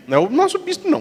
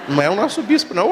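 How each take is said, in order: First: Nosso lifted high and leaned on; stress on nosso. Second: Said in the usual way. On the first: Shown as a demonstration.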